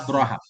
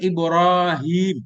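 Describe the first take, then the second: First: The long vowels after r and h are dropped. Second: The long vowels after r and h are kept. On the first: "dengan dibuang alif sesudah ra" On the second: "Mestinya kan Ibrahim"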